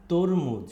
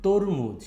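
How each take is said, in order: Both takes have the same delivery.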